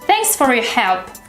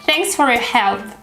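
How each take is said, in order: First: The word 'for' is reduced to a weak form. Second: The word 'for' is reduced to a weak form.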